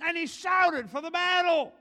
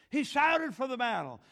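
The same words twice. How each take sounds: First: Raised, louder battle-cry reading; rousing shout. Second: Said in the usual way. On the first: A narrator's reading. Preacher reading of David at the battle, shouted. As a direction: belt out the verse like a rally.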